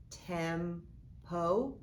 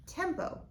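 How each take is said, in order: First: "tempo" in two chunks, tem, pause, po; "tempo" said slowly as tem... po; split into syllables. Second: Said in the usual way. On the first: Shown as a demonstration. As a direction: break "tempo" apart after the m. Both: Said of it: "put this back together".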